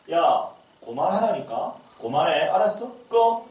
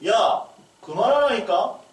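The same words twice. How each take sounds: First: Stern mock scolding, rising at the end; mother scolding. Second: Higher, louder, slow exasperated mom; mother's voice. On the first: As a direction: scold the kid to turn it off. Mother scolding child over games. (게임하는 아이를 꾸짖는 엄마의 짜증 섞인 말투) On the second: Retold or imitated. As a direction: play the fed-up mother snapping. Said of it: "엄마 목소리로". (엄마 목소리로 높고 크게 느리게 꾸짖기)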